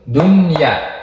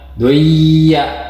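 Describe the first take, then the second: First: The n sound is pronounced clearly. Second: The n sound is dropped and merged. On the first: The speaker calls it right. "dibacanya nanti jelas" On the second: The speaker calls it wrong. "takutnya dibacanya duya. Jangan"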